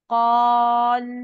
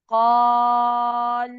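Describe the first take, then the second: First: The long vowel is held for four counts. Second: The long vowel is held for six counts. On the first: "चार हरकत देके पढ़े" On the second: "छह हरकत"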